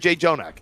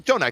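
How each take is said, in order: First: The starting J sound is doubled. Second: The starting J sound is said once. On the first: The speaker calls it wrong. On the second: The speaker calls it right.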